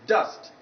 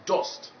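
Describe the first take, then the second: First: The vowel is the target vowel sound. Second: The vowel is a different vowel sound. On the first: The speaker calls it right. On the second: The speaker calls it wrong.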